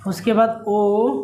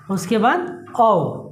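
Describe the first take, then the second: First: Slow, clear ओ with a rising tune; long vowel ओ said slowly; vowel sound demo. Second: Slow, clear औ with a falling tune; long vowel औ said slowly; vowel sound demo. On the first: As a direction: draw out ओ, rising at the end. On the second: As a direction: draw out औ and let it fall. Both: Shown as a demonstration. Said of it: "आप लोग count भी कर सकते हैं".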